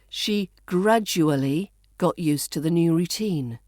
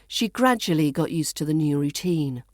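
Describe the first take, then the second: First: Gradually is said with every syllable. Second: Gradually is said with syllables squeezed.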